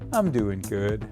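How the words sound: The voice sounds flat and unhappy. The speaker is not really fine.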